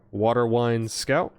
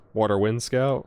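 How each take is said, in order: First: Water Wine Scout with Wind slipped to Wine, a bit slow; botched card name Water Wine Scout; misread name. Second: Said in the usual way. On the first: Real, not acted. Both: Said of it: "I don't know why I said it like that".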